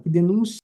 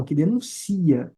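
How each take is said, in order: First: "denúncia" with the stress on "nú", as the noun; wrong stress. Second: "denuncia" slow, stressed on "ci", as the verb; correct stress. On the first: Teacher showing students the wrong stress, "denúncia" stressed on "nú". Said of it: "Denúncia é substantivo". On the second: Teacher showing students the right verb stress, "denuncia" slow on "ci". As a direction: say "denuncia" slowly, leaning on "ci". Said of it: "No denuncia, a sílaba tônica é o si". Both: Shown as a demonstration.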